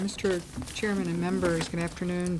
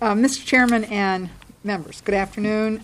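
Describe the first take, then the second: First: It is spoken quietly, without projection. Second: It is spoken loudly, with a projected voice. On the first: The speaker calls it wrong. "speak up just a little" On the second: The speaker calls it right. "My floor voice is like this"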